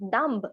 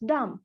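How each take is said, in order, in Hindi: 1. अंतिम b की ध्वनि बोली जाती है। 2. अंतिम b मौन रहता है। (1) "it's not dumb" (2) "it's dumb"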